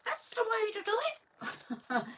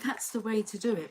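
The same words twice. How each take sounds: First: It is said in a Mister Punch voice. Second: It is said in the speaker's normal voice.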